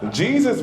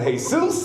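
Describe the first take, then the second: First: The name is pronounced the English way. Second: The name is pronounced the Spanish way. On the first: It names the religious savior. "Jesus will save you" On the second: It names an ordinary local guy.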